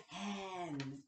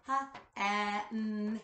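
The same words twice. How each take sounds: First: Said in the usual way. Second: "H-at-n" split into its sounds, loud; sounded out. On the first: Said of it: "then clap the whole word". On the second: Shown as a demonstration. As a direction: stretch "H-at-n" apart sound by sound. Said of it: "break down the word in the beginning, middle, and ending sound".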